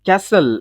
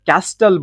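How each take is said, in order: First: The t sound is silent in the middle. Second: The t sound is pronounced in the middle. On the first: The speaker calls it right. "ಇಲ್ಲಿ ಟಿ silent ಆಗುತ್ತೆ" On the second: The speaker calls it wrong. "ಕ್ಯಾಸ್ಟಲ್ ಬದಲು"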